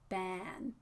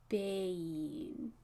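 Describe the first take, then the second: First: The vowel is short and plain, without a glide. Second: The vowel glides as a long diphthong. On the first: The speaker calls it wrong. "I'm hearing kind of like ban" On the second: The speaker calls it right. "So let that A happen"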